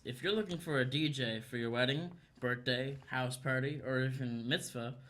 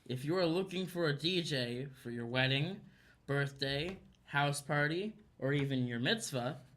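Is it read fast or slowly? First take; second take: fast; slowly. First: It is read quickly and blurred together. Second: It is read slowly and clearly enunciated.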